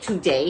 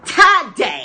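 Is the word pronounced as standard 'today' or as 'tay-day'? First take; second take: standard; tay-day. First: It is said the standard way. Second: It is said like 'tay-day'. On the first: This is not how the speaker's people say it. "We don't say today" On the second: This is how the speaker's people say it. "We say today. ... T A Y D A Y"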